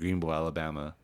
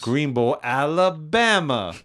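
First: It is said in the speaker's ordinary voice. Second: It is said in a put-on character voice.

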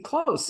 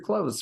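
First: The word ends with a hissing s sound. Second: The word ends with a buzzing z sound. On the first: The speaker calls it right. "it's got to be close" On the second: The speaker calls it wrong. "I thought it was Danger Close for a long time"

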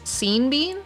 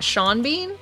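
First: The first name rhymes with the last name. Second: The first name does not rhyme with the last. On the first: The speaker calls it wrong. "think that it was Sean Bean" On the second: The speaker calls it right. "and not Sean Bean"

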